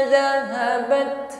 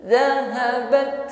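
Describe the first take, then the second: Both takes have the same delivery.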